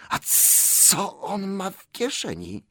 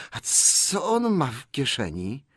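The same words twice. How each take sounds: First: High, slow, hissing creature; sharp hiss. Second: High, slow, hissed suspicion; louder, sharper hiss. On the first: Gollum suspects Bilbo's pocket, hissing sharply. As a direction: hiss it suspiciously, stretching the sibilants. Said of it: "odezwał się ostry syk". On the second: Gollum presses about Bilbo's pocket, sharp hiss. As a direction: hiss the question with more edge. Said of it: "zasyczał tym razem głośniej i ostrzej". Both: A narrator's reading.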